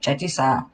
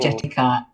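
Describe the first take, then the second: First: The last syllable begins with an s sound. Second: The last syllable begins with a k sound. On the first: The speaker calls it wrong. "I just say Jitty Sa" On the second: The speaker calls it right. "it should be"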